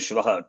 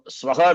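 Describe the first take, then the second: First: The word begins with an sh sound. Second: The word begins with a plain s sound. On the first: The speaker calls it wrong. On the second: The speaker calls it right.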